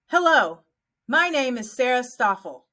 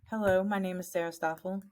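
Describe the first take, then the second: First: It is said clearly and confidently, with energy. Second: It is said quietly and mumbled, without energy. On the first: The speaker connects and is memorable. The speaker calls it right. "Say it with confidence" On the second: The listeners will not remember the speaker. The speaker calls it wrong. "Don't mumble your name. So if you go"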